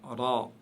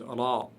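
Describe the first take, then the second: The two takes are said the same way.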